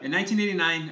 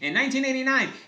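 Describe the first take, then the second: First: It is said in his normal speaking voice. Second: It is said in an old wartime newsreel voice.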